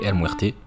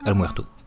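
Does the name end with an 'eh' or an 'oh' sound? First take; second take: eh; oh. First: The name ends with an 'eh' vowel. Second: The name ends with an 'oh' vowel. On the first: The speaker calls it wrong. "Je l'ai appelé El Muerte" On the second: The speaker calls it right. "alors que c'est El Muerto"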